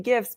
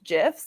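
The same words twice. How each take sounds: First: It begins with a hard G sound. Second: It begins with a soft J sound. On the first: It matches the G in graphics. "because the G stands for graphics" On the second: It follows the creator's stated pronunciation. "like the peanut butter"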